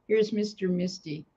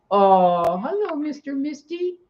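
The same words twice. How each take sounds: First: Said in the usual way. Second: High sing-song greeting to the cat; pet talk. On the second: Real, not acted. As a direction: coo hello up high to the cat.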